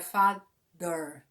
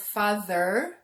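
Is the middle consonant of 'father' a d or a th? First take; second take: d; th. First: The middle sound is a hard d. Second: The middle sound is a soft th. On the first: The speaker calls it wrong. "Brazilians would say my father, and you would be wrong" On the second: The speaker calls it right. "instead of father"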